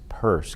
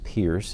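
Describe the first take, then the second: First: The name sounds like purse. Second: The name rhymes with fierce. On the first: The speaker calls it right. "kind of like a woman's purse" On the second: The speaker calls it wrong. "His name is not pronounced Pierce"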